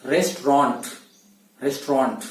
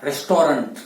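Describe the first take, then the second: First: रेस्टोरेंट as restrant in two syllables; correct pronunciation. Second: रेस्टोरेंट with all three syllables, res-to-rent; wrong pronunciation. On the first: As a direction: run रेस्टोरेंट together as restrant. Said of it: "क्या बोलना है". (रेस्टोरेंट, रेस्ट्रांट जैसा) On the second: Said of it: "रेस्टोरेंट बोलना नहीं है". (रेस्टोरेंट, गलत उच्चारण) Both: Shown as a demonstration.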